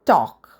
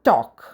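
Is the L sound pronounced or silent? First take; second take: silent; silent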